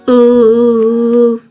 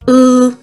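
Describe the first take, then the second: First: The sound is held for a long time. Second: The sound is short and sharp. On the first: The speaker calls it wrong. "it shouldn't be" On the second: The speaker calls it right. "It should be short and sharp"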